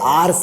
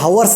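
First: The word starts with a vowel, no h sound. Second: The word starts with an audible h sound. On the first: The speaker calls it right. "आर्स आहे ते" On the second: The speaker calls it wrong. "हवर्स नाही"

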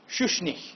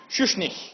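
First: The name ends in a breathy, H-like sound. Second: The name ends in a breathy, H-like sound.

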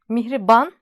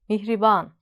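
First: The final a is said short. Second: The final a is said long. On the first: The speaker calls it wrong. "Mihriban değil" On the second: The speaker calls it right. "Mihriban derken a uzun"

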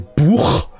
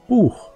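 First: The ch sound is harsh and scraping. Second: The ch sound is a soft breath. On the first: The speaker calls it wrong. "which would sound aggressive and harsh" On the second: The speaker calls it right. "a mild blow of wind"

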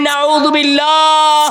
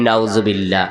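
First: It is said more loudly. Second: It is said at normal volume.

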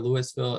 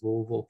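First: Each syllable is said carefully and fully. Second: It is mumbled with little lip movement. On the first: This is how outsiders say the name. The speaker calls it wrong. "It is not Louisville" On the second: This is how locals say the name. The speaker calls it right. "you say it without moving your lips"

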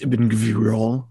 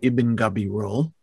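First: The surname has no vowel after its first consonant. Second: The surname has a vowel after its first consonant. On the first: The speaker calls it wrong. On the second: The speaker calls it right.

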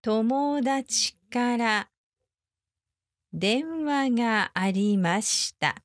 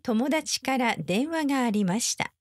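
First: It is said slowly. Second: It is said at normal speed.

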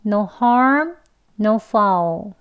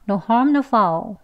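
First: It is said slowly. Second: It is said fast.

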